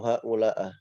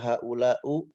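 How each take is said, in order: First: The word ends in an a vowel. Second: The word ends in a u vowel. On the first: "atau haula'ah" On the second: "Tidak boleh dibaca haula'u"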